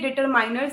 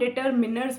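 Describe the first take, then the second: First: The third syllable has an 'eye' vowel. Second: The third syllable has a short 'ih' vowel. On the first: The speaker calls it wrong. "ये डिटरमाइनर्स नहीं होता है" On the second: The speaker calls it right. "इसको हम डिटरमिनर्स बोलते हैं"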